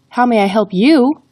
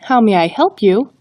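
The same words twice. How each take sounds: First: The word you carries the emphasis. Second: The word help carries the emphasis. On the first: "the emphasis is on the word you" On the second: "the emphasis is on the word help"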